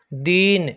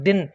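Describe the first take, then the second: First: दीन with the ई held long; long ee in deen. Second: दिन with a quick short इ; short i in din. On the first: Teacher showing students the long ee in दीन. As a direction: stretch the ई in दीन. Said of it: "ज़्यादा समय लग रहा है". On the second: Teacher showing students the short i in दिन. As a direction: keep the इ in दिन brief. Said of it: "इस दी को बोलने में कम समय". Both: Shown as a demonstration.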